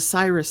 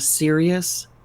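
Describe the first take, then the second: First: The name sounds like Cyrus, echoing Osiris. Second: The name sounds like the word serious. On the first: This links the star to the god Osiris. "I used to always call it the Osiris star, um, the Sir, the the Cyrus star" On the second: This is the usual modern name. "it's not even spelled like Sirius. Like, you know, oh, that was serious"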